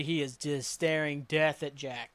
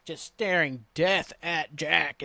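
First: Slow, softer stress on "staring death"; measured pace with "death" leaned on; deliberate emphasis. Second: "staring death at Jack" stretched very slowly, word by word; exaggerated slow stress on "death"; drawn-out emphasis. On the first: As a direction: weigh out "staring death at Jack" slowly. First take of a dramatized glare. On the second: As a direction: drag out "death" and "Jack" for effect. Repeats phrase for dramatic effect. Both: Real, not acted.

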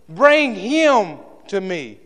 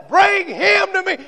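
First: Slow command. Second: High, loud ringing shout of bring him to me; shouted command. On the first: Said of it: "and said". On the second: Jesus calling the crowd to bring the man, shouted. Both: Acted.

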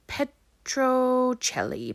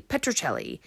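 First: Petrocelli drawn out slowly with a rising, questioning tune; unsure name. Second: Said in the usual way. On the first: Shown as a demonstration.

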